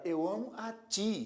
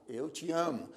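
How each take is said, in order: First: "ti" said with full force; stressed TI. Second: "te" unstressed, leaning on "amo". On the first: Teacher illustrating the strong pronoun, "ti" stressed. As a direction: land firmly on final "ti". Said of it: "ti já é um pronome". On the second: Teacher illustrating the weak pronoun, "te" left unstressed. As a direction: pass over "te" without force. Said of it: "te é um pronome oblíquo átono". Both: Shown as a demonstration.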